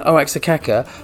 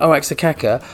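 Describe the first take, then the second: First: The name is sounded out following its spelling. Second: The name is sounded out following its spelling.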